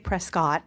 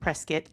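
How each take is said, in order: First: The ending does not sound like brisket. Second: The ending sounds like brisket. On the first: The speaker calls it wrong. "don't say Prescott" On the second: The speaker calls it right. "it's Prescott, like brisket"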